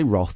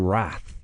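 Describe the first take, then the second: First: The word is said in a non-American way. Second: The word is said in an American way. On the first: "they don't say Roth" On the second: "in America, they say Wrath"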